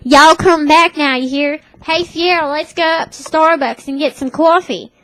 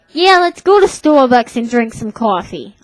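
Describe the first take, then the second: First: Higher-pitched Southern twang from Tennessee; Tennessee accent. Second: Said in the usual way. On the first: Retold or imitated. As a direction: imitate a friend's folksy Tennessee accent. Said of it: "she talks like this". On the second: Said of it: "just talking like my normal self".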